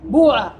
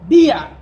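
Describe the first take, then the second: First: The first vowel is a u sound. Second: The first vowel is a plain i sound.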